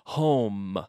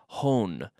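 First: The lips close fully on the final M. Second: The final M is not closed with the lips. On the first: The speaker calls it right. "closing your mouth with the M" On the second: The speaker calls it wrong. "No quiero oír home"

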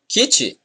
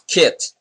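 First: The word is said in a Brazilian pronunciation. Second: The word is said in a non-Brazilian pronunciation. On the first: The speaker calls it right. "We say kit" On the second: The speaker calls it wrong. "not kit"

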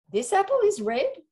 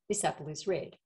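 First: It is said in a challenging, boastful way. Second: It is said as plain, neutral information.

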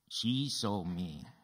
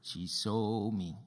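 First: The stress is on the word she. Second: The stress is on the word saw. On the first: It was she, not someone else, who saw. "Who saw you?" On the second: She saw rather than heard. "Did she see you or hear you?"

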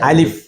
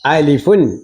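First: The word ends on a plain f sound. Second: The word ends with an added un sound. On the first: The speaker calls it right. "പിന്നെ എങ്ങനെ തന്നെ പറയണം?" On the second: The speaker calls it wrong. "അങ്ങനെയും പഠിപ്പിക്കരുത്"

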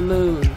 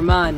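First: The vowel is a long oo, like moon. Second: The vowel is a short u, like mun. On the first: The speaker calls it wrong. "Why have I been pronouncing it moon?" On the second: The speaker calls it right. "I always pronounce it mun"

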